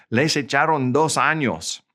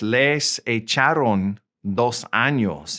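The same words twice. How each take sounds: First: Said in the usual way. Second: Slow, deliberate Spanish; slow model sentence. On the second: Shown as a demonstration. Teacher models the court sentence for learners, slowly. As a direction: draw out "Les echaron dos años" with small breaks.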